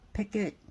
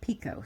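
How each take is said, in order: First: The word is pronounced like 'picket'. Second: The word is pronounced as 'picot', unlike 'picket'. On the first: "Some people pronounce it picket" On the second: "some people pronounce it picot"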